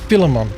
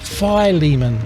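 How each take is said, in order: First: It uses the speaker's former pronunciation. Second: It uses the standard accepted pronunciation. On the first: The speaker calls it wrong. "I used to pronounce this Philemon" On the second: The speaker calls it right. "but it's pronounced Philemon"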